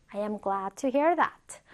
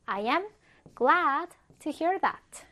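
First: Said in the usual way. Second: "I am", pause, then a drawn-out "glad to hear that"; "glad" stretched out for learners to follow; slow model sentence. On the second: Shown as a demonstration. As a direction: say "I am glad to hear that" slowly in separate chunks. Teacher models sentence in slow chunks.

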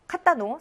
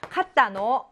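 First: 카타노 lifted high at the end; questioning upturn on the 노 of 카타노; rising question. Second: 카타노 said as a statement, no question lift; statement intonation. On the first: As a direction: ask 카타노 with a rising tune. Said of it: "올리면 의문문". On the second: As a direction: state 카타노 rather than asking it. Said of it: "하면 평서문". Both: Shown as a demonstration.

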